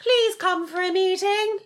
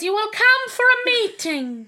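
First: High, slow mock royal voice; stretched, high-pitched monarch caricature; the Queen. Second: Loud, high, imperious royal command; mock-stern monarch, high and drawn out; the Queen. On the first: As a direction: summon them in a drawn-out regal falsetto. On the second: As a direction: order it slowly in a put-on regal voice. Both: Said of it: "I'm really good at doing the Queen".

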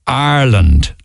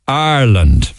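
First: "Ireland" said as "Arland"; "Ireland" clipped to "Arland"; Cork pronunciation. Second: Said in the usual way. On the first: Shown as a demonstration. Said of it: "instead they say". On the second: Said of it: "don't say Ireland".

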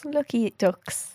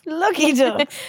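First: Slow drawn-out. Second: Lucky ducks, higher and louder, bouncing up; teasing echo of the co-host, higher; higher playful echo. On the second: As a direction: toss it back higher and brighter. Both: Acted.

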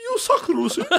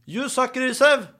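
First: Put-on very high British-accented jeer through laughter; mock British heckle. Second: High, slow call in Norwegian-accented English; Norwegian-English heckle. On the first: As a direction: mimic a British fan mockingly, cracking up. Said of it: "drar på sånn britisk aksent". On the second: Shown as a demonstration. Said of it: "Jeg har, eh, norsk-engelsk".

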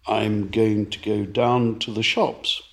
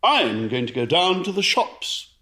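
First: "I'm going to go down to the shops" with the voice lifting on "shops"; plain monotone, lift only "shops" at the end; flat phrase, a rise on the last word "shops". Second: Lively, sing-song; higher, bouncy and animated. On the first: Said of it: "I raised my voice for shops". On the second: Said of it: "Well, I could say". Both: Shown as a demonstration.

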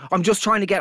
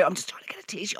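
First: Said in the usual way. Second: Whispered apology to the queue. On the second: Retold or imitated. Murmuring to bystanders in the coffee queue, whispered. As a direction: breathe it out, barely audible.

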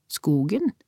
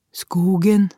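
First: SKOGEN with a rising question tune; puzzled repeat, lifting at the end; questioning echo. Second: Louder, higher, level statement; child's answer. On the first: Mother echoes the answer, questioning. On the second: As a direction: answer firmly as the boy, pitched up. Child's answer to worried mother. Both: A narrator's reading.

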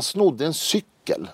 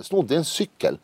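First: Said in the usual way. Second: "Snodde" lifted high with a rising tune; incredulous emphasis. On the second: Shown as a demonstration. Telling the host about his brother, "Snodde" raised in disbelief. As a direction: hit "Snodde" high and let it rise, amazed. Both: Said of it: "Fattar du?".

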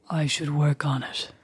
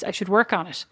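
First: Slow, put-on sultry deep voice; creepy low voice. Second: Said in the usual way. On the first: Sister practising a sexy timbre, creepy low and slow. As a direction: say it slowly, dropped low and creepy. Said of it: "talking in that creepy voice".

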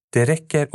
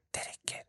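First: Said in the usual way. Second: Very soft voiceless whisper; imitated whisper. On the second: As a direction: whisper it like a voice right in someone's ear. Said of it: "typ som någon viskar i mitt öra". (viskande röst, tätt intill örat)

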